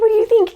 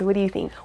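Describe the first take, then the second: First: It is said in a high-pitched voice. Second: It is said in a normal voice.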